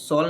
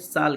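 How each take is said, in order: First: The vowel sounds like 'aw' in 'law'. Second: The vowel sounds like 'ah' in 'father'. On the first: The speaker calls it wrong. "इसे सॉल नहीं कहते" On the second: The speaker calls it right. "साल कहते हैं"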